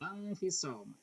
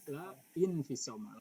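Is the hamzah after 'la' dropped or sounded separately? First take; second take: dropped; separate. First: La links straight into fisoma, dropping the hamzah. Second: The hamzah is sounded separately after la. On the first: The speaker calls it right. "Cara bacanya langsung ya" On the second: The speaker calls it wrong. "tidak tidak usah la infisoma, bukan begitu"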